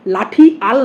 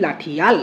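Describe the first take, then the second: First: "লাঠি আল" with আল kept separate; split pronunciation. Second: "লাঠি আল" run together as "লাঠিয়াল"; glided pronunciation. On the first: Teacher repeating the unused form, split "লাঠি আল". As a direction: separate the two vowels in "লাঠি আল". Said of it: "না বলে". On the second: Teacher repeating what we say, glided "লাঠিয়াল". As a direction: put a y-glide before আল in "লাঠি আল". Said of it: "আমরা বলছি". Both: Shown as a demonstration.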